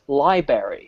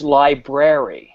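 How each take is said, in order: First: Some spelled sounds are left out of the word. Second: Every spelled sound of the word is pronounced. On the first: The speaker calls it wrong. "neither is library" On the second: The speaker calls it right. "It's library"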